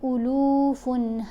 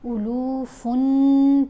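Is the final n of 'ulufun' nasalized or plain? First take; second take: plain; nasalized. First: The final n is short and not nasalized. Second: The final n is held and nasalized. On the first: The speaker calls it right. "तो हम कैसे इसको अदा करेंगे?" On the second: The speaker calls it wrong. "गुन्ना अदा होगा, जो कि गलत है"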